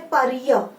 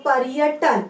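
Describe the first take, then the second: First: पर्य broken apart as प य; wrong split syllables. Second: पर्यटन with a clear र between प and य; clear r sound. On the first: Teacher showing class the wrong reading. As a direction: pull प and य apart. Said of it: "प य नहीं बोल रहे हम लोग". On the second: Teacher showing class the right reading. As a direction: land the र in पर्यटन. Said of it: "तो र आ रहा है बीच में". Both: Shown as a demonstration.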